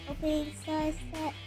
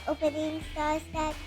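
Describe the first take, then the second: No difference in how they are said.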